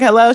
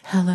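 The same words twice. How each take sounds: First: It is said in a plain voice. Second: It is said in a sultry voice.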